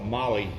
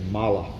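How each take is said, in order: First: The word ends with an 'ee' sound. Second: The word ends with an 'ah' sound. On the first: The speaker calls it wrong. "some people call it Molly" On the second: The speaker calls it right. "but it's actually Mala"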